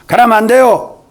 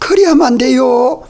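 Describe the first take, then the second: First: It sounds stern and judgmental. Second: It sounds tender and trembling with concern. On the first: The speaker condemns from above. The speaker calls it wrong. "심판하는 격에 위치해서 하는 말" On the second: The speaker pleads out of love. The speaker calls it right. "안타까운 사랑이 가득 들어서 그리하면 안 돼요 벌벌 떨면서 하는"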